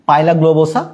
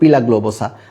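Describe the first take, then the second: First: The first syllable sounds like pie. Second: The first syllable sounds like pee. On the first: "লেখা হচ্ছে কি পাইলা globosa" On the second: "বা তুমি উচ্চারণ করতে পারো পিলা গ্লোবোসা"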